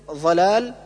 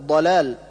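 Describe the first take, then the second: First: ضلال opening on emphatic dh, ظ; dad as zha. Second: ضلال opening on emphatic stop ض; correct dad. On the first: Teacher showing a clear error, ضلال said with ظ. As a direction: turn the ض of ضلال into ظ. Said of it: "كالنطق بالضاد ضاء". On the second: Teacher correcting the error, ضلال with true ض. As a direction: press a full ض at the start of ضلال. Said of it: "والصواب". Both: Shown as a demonstration.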